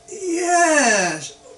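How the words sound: It is said in a doubtful, uncertain way. The answer is only maybe. "which means maybe"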